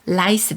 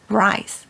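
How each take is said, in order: First: It starts with a flat Korean L-like sound. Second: It starts with a curled English R sound. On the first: It sounds like asking for lice. The speaker calls it wrong. "라이스 대신에" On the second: It clearly asks for rice. The speaker calls it right. "혀를 좀 굴려서 ... rice 해주셔야 됩니다"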